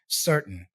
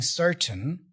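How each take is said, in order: First: The middle T is a glottal stop. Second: The middle T is a clear T sound. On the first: "this T there in the middle has more of a glottal sound" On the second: "he's not really saying certain"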